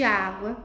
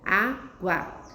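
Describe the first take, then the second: First: Said in the usual way. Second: "Água" partida em duas sílabas, Á, gua; separação silábica. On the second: Shown as a demonstration. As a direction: pronuncie "Água" sílaba por sílaba, com pausa. ("Água" silabada para a turma) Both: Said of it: "São palavras formadas por duas sílabas".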